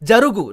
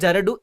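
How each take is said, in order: First: The middle consonant is a g sound. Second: The middle consonant is a d sound. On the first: The speaker calls it right. "Jarugu, not Jaradu" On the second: The speaker calls it wrong. "not Jaradu"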